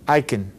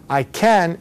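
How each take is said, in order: First: The vowel in can is a weak schwa. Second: The vowel in can is a full ah. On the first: "most Americans are going to say kun" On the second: "people are not going to say that"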